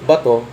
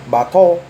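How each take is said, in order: First: The word ends in a plain o vowel. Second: The word is said with a Chinese-like accent. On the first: "instead of bato" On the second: "Like Chinese"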